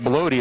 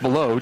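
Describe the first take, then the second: First: The name ends with an 'ee' sound. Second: The name ends with an 'oh' sound. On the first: The speaker calls it wrong. "I've been saying that wrong the whole game" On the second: The speaker calls it right. "it's Belote"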